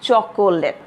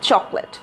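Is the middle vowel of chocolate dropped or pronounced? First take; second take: pronounced; dropped. First: The middle vowel is pronounced as a full syllable. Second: The middle vowel is dropped, giving two syllables. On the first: The speaker calls it wrong. "Many of you pronounce it as chocolate, which is completely wrong" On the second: The speaker calls it right. "যদিও এখানে একটা ও আছে, but when we are going to pronounce it, we are not going to use that"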